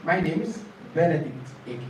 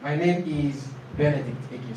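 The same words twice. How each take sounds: First: "My name is" joined as "my name's"; contracted form. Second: "my name is" with IS a separate word; full form. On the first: Teacher modelling the second one with own name, contracted form. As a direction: shorten IS to a z on NAME. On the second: Teacher modelling the first template with own name, full form. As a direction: keep IS uncontracted before the name. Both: Shown as a demonstration. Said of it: "Second one".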